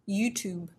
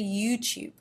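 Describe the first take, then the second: First: The second u is a plain oo without y. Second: The second u starts with a y glide. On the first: The speaker calls it wrong. "We wouldn't say YouTube" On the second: The speaker calls it right. "We'd say YouTube"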